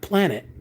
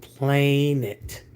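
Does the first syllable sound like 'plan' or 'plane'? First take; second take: plan; plane. First: The first syllable sounds like 'plan'. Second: The first syllable sounds like 'plane'. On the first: The speaker calls it wrong. "not planet" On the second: The speaker calls it right. "which is really pronounced planet"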